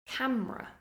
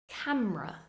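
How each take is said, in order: No difference in how they are said.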